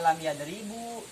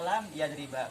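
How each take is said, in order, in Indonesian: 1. Kata kedua berakhir dengan vokal akhir u. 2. Kata kedua berakhir dengan vokal akhir a. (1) "Tidak dibaca" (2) "tidak boleh dibaca"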